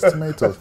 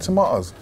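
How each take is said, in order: First: It is said in a Canadian accent. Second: It is said in a Cockney accent. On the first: This is how others corrected the speaker. The speaker calls it right. "people used to correct my speech" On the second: This is how the speaker talked as a child. The speaker calls it wrong. "I had a Cockney accent. ... I was saying"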